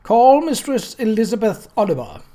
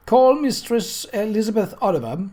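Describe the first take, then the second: First: A higher, louder clerk's voice cutting over the crowd; tinny raised voice. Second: A raised, higher official call; coroner's summons. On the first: Clerk calling the witness over the crowd's stir, tinny and loud. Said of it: "raised his tinny voice over the stir". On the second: Coroner calling the child witness to the chair, raised and formal. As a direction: call the witness to the stand with authority. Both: A narrator's reading.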